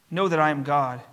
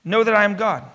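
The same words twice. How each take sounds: First: Said in the usual way. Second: Firm, loud "Know that I am God"; emphatic. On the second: Shown as a demonstration. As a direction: stress on "Know", falling at the end.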